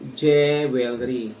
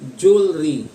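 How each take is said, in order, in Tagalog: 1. Ito ay binabasa nang letra por letra, parang Tagalog. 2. Ito ay pinaikli sa mas maikling anyo. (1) "binabasa natin na parang Tagalog" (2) "may mga native speakers na lalong pinaikli"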